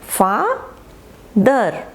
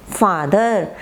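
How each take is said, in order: First: father drawn out as two separate beats, फा, pause, दर; syllable by syllable. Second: Said in the usual way. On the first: Shown as a demonstration. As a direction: split father into slow, stretched syllables. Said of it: "टू syllables जैसे". (Father को फा और दर में तोड़कर, खींचकर) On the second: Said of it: "जब आप अलग एक मात्रा पर".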